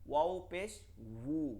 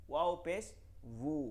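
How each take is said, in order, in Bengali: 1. শেষ অক্ষরটি গোল ঠোঁট দিয়ে শুরু হয়। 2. শেষ অক্ষরটি গোল ঠোঁট দিয়ে শুরু হয়।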